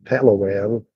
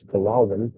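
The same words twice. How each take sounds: First: Palawan with flat "PAL-a-wan" vowels, as in cat; first-syllable stress on Palawan; mispronounced Palawan. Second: Palawan said puh-LAH-wan; correct Palawan. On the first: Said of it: "tired of hearing people say Palawan". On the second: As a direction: stress the LA in Palawan, with an ah. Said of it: "when it's Palawan". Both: Shown as a demonstration.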